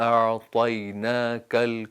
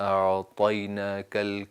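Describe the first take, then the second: The two takes are said the same way.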